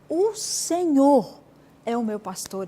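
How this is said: The word Senhor carries the emphasis. He is my Lord. "essa ênfase que você deu na palavra Senhor"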